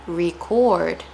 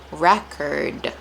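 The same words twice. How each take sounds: First: Record said ree-CORD; verb pronunciation. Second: Record said REK-erd, lower; noun pronunciation. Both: Shown as a demonstration. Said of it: "So notice the difference".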